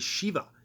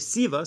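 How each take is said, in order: First: The word begins with a sh sound. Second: The word begins with a plain s sound. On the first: "some people say Shiva" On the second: "some people say Siva"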